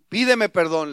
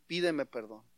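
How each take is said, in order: First: Loud, forceful demand; father raising his voice to demand an apology; firm order at full volume; stern, insistent father. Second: Low and soft, restrained demand; quiet paternal authority; stern, serious father. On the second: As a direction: repeat the order quietly and soberly. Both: Acted. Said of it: "lo ve muy serio y le dijo".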